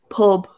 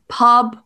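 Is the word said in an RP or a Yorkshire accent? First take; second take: Yorkshire; RP. First: The vowel is a Yorkshire oo-like vowel. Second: The vowel is an open RP vowel. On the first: "they would be like" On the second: "instead of saying like pub"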